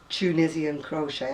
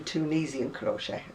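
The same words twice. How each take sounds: First: It uses the speaker's own British pronunciation. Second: It uses a pronunciation the speaker does not use. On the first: This is how the speaker says it. The speaker calls it right. "I do Tunisian crochet" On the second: This is how others say it. The speaker calls it wrong. "I don't do Tunisian crochet"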